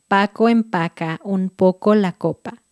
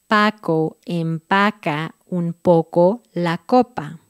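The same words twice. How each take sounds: First: It is said at a normal, faster speed. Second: It is said slowly and carefully. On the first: "Ahora va a velocidad normal" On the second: "Vamos despacito"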